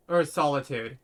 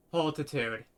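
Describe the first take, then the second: First: Solitude said cleanly as SOL-i-tude, stress on or; careful fix of the word solitude; self-correction. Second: Solitude slurred as holtitude; misread word. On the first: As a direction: correct yourself: or, SOL-itude. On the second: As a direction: stumble over solitude, saying it like holtitude. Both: Real, not acted.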